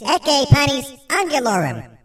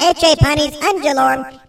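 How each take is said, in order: First: It is pronounced in the classical Latin way. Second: It is pronounced in a non-classical Latin way. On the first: The speaker calls it right. "this is Ecce Panis Angelorum" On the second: The speaker calls it wrong. "Not Ecce Panis Angelorum"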